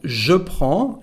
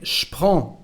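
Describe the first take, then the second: First: The word je is said with its vowel. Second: The word je shrinks to a sh sound.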